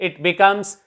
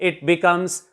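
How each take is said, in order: The two takes are said the same way.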